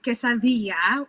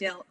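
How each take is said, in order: First: It is said with a Spanish-style accent. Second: It is said with a plain English accent.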